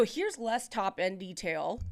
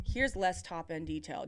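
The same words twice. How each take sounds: First: Off-mic demo. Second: Muffled demo. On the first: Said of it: "now do you hear the less". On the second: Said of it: "do you hear the less". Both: Shown as a demonstration.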